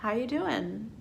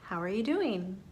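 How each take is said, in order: First: How you doing, with are dropped, rising; casual reduced form. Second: Said in the usual way. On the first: Shown as a demonstration. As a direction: run the words together casually. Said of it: "I just said". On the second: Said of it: "in natural spoken English, I just said".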